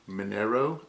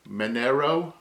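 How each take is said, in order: First: The n sound comes before the r sound. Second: The n sound comes before the r sound.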